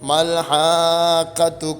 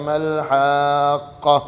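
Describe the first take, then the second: First: The word ends with a voweled t sound. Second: The word ends on a stopped h sound. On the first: The reciter joins this word to the next. "കൂട്ടി ഓതുകയാണെങ്കിലോ" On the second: The reciter pauses after this word. "നിർത്തുമ്പോൾ ഹാഖ ഹാ ഇനെ സുക്കൂൻ ചെയ്യുന്നു"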